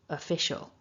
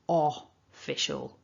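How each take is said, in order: First: The first vowel is a short, weak schwa. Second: The first vowel is a full, over-pronounced vowel. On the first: The speaker calls it right. "it's a schwa" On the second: The speaker calls it wrong. "not official"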